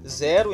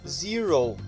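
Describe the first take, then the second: First: It is pronounced the Portuguese way. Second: It is pronounced the English way. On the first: "Nós falamos zero em português" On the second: "em inglês nós vamos falar zero"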